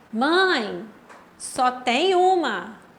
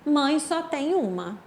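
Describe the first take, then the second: First: There is a pause after the first word. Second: It is said straight through without a pause. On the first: The speaker tells their mother there is only one item. "aqui sim teve" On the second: There is only one mother in the world. "Aqui não teve pausa"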